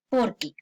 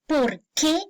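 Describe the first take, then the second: First: It sounds like one joined word. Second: It sounds like two separate words. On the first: It gives a reason in an answer. "se pega para que suene porque" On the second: It asks a question. "pues pronuncias dos palabras"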